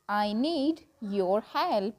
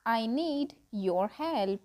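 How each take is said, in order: Both takes have the same delivery.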